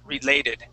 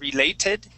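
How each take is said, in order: First: The middle consonant is a soft D sound. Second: The middle consonant is a clear T sound. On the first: "he changed that T to a D sound" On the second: "instead of saying related"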